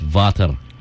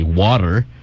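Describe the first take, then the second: First: It is said in a German accent. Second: It is said in an American accent. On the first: "a German would say it as water" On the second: "in an American, you would say water"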